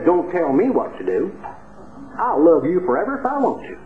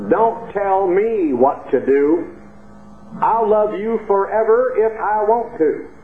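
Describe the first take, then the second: First: Lightly put-on East Texas speech; East Texas accent. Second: Slow East Texas country drawl, pitched up; East Texas chorus. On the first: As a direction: quote her with a touch of East Texas accent. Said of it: "the way they say it down in East Texas with that accent". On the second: Retold or imitated. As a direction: draw out the chorus in a high East Texas accent. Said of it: "has a chorus that goes like this".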